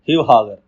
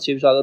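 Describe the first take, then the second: First: The words begin with 'h' sounds instead. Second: The words begin with 'sh' and 's' sounds.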